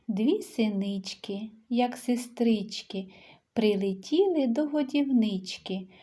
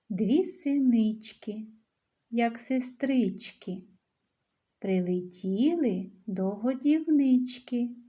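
First: The lines are recited at a normal pace. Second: The lines are recited at a slower pace.

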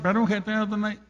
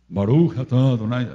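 First: It is said in a plain, natural nasal voice. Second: It is said in an affected, put-on voice.

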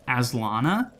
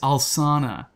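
First: The name starts with the sound 'as'. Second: The name starts with the sound 'al'. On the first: The speaker calls it wrong. "I originally read it as Aslana" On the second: The speaker calls it right. "because it's Alsana"

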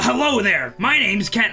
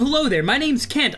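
First: It is said in a put-on Vegeta-style voice. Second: It is said in his own natural voice.

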